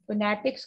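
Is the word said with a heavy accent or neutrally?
neutral. The word is said plainly, in a neutral accent. The speaker calls it right. "सिंपल"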